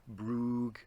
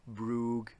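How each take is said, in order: Both takes have the same delivery.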